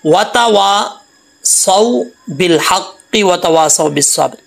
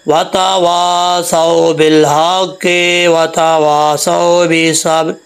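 First: Slow, clean tajweed reading of वतवासौ बिल हक़्क़ि without melodic ornament; correct recitation. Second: Slow sung वतवासौ बिल हक़्क़ि, stretched for melody and distorting the words; sung, wrong melodic recitation. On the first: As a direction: recite वतवासौ plainly and slowly, each letter clear. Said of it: "इसको ऐसा नहीं पढ़ना". (धीमी, साफ़ सही तिलावत) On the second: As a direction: chant it with showy tarannum that bends the letters. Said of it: "अपने तरन्नुम के चक्कर में". (sung, तरन्नुम के चक्कर में गाकर गलत पढ़ना) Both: Shown as a demonstration.

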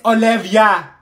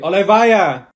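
First: "Olivia" as oh-LIV-ee-uh, loud and slow; corrected pronunciation. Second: "Olivia" as oh-luh-VYE-uh, loud and drawn out; mispronounced name. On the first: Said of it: "It's pronounced Olivia". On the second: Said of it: "It's Olivia". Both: Acted.

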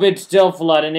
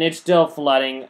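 First: Louder, raised it's still flooding; louder exasperated. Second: Said in the usual way. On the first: Real, not acted. Gamer sees the water still flooding his farm, louder disbelief. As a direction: call it out in disbelief. Exclaims test failed.

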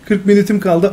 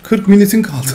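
First: Higher, louder mock reading of the phrase; mocking repeat. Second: Reads the line through a laugh, higher and louder; amused by absurd game wording; laughing disbelief. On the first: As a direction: parrot the game's words back. Repeats game text mockingly. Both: Real, not acted.

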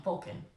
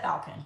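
First: Balkan said as "BOL-kin"; first vowel as O. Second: Balkan said as "BAL-kin"; first vowel as A. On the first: Unsure of the word, Balkan as "BOL-kin". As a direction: say Balkan with a round O, like "bowl-kin". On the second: Reporting aunt's test result, Balkan as "BAL-kin". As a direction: say Balkan with the short A of "pal". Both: Shown as a demonstration. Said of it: "whatever, whatever".

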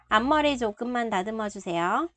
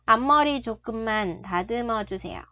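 The two takes are said the same way.

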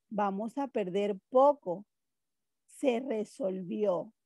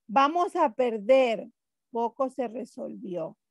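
First: PERDER POCO joined, falling, then SE RESOLVIÓ; pause after POCO. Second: PERDER ends the phrase, POCO starts the next; pause before POCO. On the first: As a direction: run POCO onto PERDER, stop, slow SE RESOLVIÓ. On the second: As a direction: break between PERDER and POCO. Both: Shown as a demonstration. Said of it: "Una coma puede ser una pausa".

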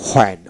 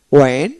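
First: "হোয়েন" with an audible h before the w; হোয়েন, h-first onset; h-sound for WH. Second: "ওয়েন" with a w onset, no h; ওয়েন, plain w at the front; w-sound for WH. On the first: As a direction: say হোয়েন starting on a breath of h. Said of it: "কখনো হ উচ্চারিত করা হয়". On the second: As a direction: say ওয়েন starting on a rounded w. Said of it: "ও উচ্চারিত করা হয়". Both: Shown as a demonstration.

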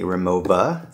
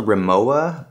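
First: "Rimowa" the German way, ending in -va; German pronunciation. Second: "Rimowa" read as written, w in the last syllable; Rimowa as spelled. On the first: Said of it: "they pronounce it in Germany". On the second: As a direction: say "Rimowa" with a w sound, ri-MO-wa. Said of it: "it's spelled Rimowa". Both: Shown as a demonstration.

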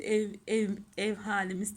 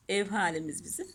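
First: Tongue-tied stumble. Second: Said in the usual way. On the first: Real, not acted. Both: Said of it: "dilim dönmedi".

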